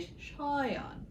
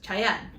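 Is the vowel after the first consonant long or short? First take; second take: long; short. First: The A vowel is drawn out long. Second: The A vowel is short and clipped. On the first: "if you pronounce it correctly, ... He has an aleph in there, the A, the elongated A" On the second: "in Spanish, right, uh, people say his name as"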